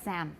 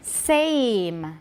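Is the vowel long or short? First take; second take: short; long. First: The vowel is short and clipped before the m. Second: The vowel is long and clear before the m. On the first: The speaker calls it wrong. "don't say Sam or Sam" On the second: The speaker calls it right. "要把 a 念得很长很清晰，再加一个 m"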